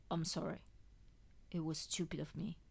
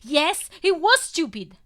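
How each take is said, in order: First: Soft, whispered apology. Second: Loud, high, bitter retort; resentful blurt. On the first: Acted. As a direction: breathe it out, ashamed. Contrite apology, weak patient. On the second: A narrator's reading. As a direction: throw it back at him. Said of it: "I blurt out resentful".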